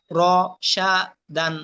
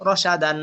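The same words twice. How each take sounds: First: র, সা, দান one syllable at a time; broken syllables. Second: Said in the usual way. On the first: Shown as a demonstration. Teacher drilling learners in broken pronunciation, syllable by syllable. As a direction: break র, সা, দান apart with pauses. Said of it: "ভাঙ্গা উচ্চারণ করবেন একটা একটা করে". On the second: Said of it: "ভাঙ্গা উচ্চারণ একটা একটা করে পড়লেন".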